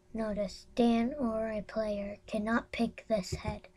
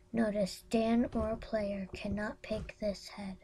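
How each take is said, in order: First: Whisper. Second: Said in the usual way. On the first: Real, not acted. Whispered reading.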